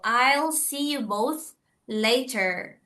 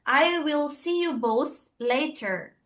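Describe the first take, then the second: First: The first words are contracted into one syllable. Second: The first words are said fully as two syllables. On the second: "kalau misalkan kita tidak singkat dia, itu akan menjadi I will"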